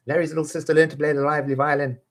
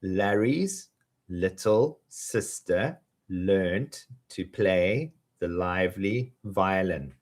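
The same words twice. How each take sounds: First: Rushed high race through the line; very fast. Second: Slow, drawn-out twister; slowly. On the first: Teacher rattling off the twister. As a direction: blurt it out at top speed. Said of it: "fast take". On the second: Teacher saying it slowly with students. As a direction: stretch each word out. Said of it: "let's say it slowly together". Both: Shown as a demonstration.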